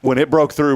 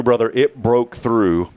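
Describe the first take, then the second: First: Said in the usual way. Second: "it broke through" slowed right down, leaning on "it"; slow stressed repeat. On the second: Real, not acted. Telling buddies how the drill bit went through, slow and heavy. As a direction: drag out "brother, it broke through", hitting "it".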